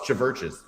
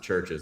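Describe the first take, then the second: First: The name is said with a v sound. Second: The name is said without any v sound. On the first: "has a V instead of a U" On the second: "I refuse to pronounce it churches"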